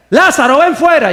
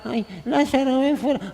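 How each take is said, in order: First: Higher, louder, bold command; confident shout at the tomb; commanding call. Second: Higher, softer, limp mock call with no conviction; mock a faith without charisma; half-hearted plea to the tomb; weak, timid call. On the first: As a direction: order him out with full faith. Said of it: "creer la palabra de Dios". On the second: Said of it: "a veces nos falta carisma". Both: Shown as a demonstration.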